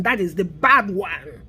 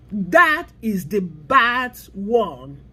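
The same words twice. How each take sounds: First: Said in the usual way. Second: Slow emphatic repeat. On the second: Shown as a demonstration. Warning viewers about institutional racism, slow and weighty. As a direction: drag each word out slowly. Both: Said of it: "repeats for emphasis".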